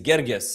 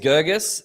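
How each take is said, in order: First: The name is said in an Egyptian-style way. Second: The name is said in an English-style way. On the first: "the Egyptian way is Gergis"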